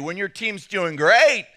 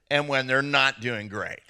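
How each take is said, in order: First: Excited rise. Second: Dropped, lower comedown voice; deflated. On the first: Pastor on men watching their team win, excited. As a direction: lift it and punch the last word. Contrasting winning team with losing. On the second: Pastor on men watching their team lose, deflated. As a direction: let the voice sink in disappointment. Contrasting losing team with winning. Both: Acted.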